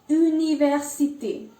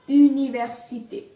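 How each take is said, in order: The two takes are said the same way.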